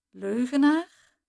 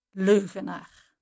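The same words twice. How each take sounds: First: Leugenaar asked back slowly with a rising, doubting tune; incredulous echo. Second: Leugenaar spat out with a firm falling end; brand him a liar, cold and final; contemptuous insult. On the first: Narrator stunned at being called a liar, slow incredulous Leugenaar. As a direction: turn the word over in disbelief. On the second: Jana calling the narrator a liar, contemptuous falling leugenaar. Insult ending Jana's threat. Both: A narrator's reading.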